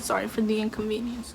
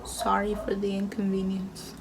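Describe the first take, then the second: First: Said in the usual way. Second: Soft unvoiced whisper of "Sorry for the inconvenience"; whispered sign reading. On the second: Reading the sign's apology to viewers, whispered.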